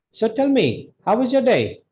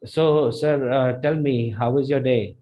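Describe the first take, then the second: First: High, lively HOW WAS YOUR DAY; bright-pitched, eager asking of "how was your day"; energetic question. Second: Dull, unenergetic delivery of "how was your day"; flat question. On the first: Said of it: "That sounds energetic. That sounds like a question". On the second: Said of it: "don't sound like". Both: Shown as a demonstration.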